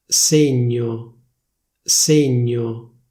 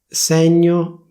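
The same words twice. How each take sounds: First: "Segno" with a closed E, ségno; "Segno" the Milan way, closed E; Milanese closed e. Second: "Segno" with an open E, sègno, a bit higher; "Segno" forced standard open E; official open e. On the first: Showing viewers Milanese "Segno" with closed E. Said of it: "come viene pronunciata a Milano". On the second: Showing viewers standard "Segno", open E. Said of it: "prima ti dico la pronuncia ufficiale". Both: Shown as a demonstration.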